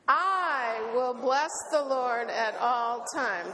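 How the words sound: The stress is on "I".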